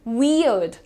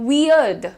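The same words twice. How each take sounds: No difference in how they are said.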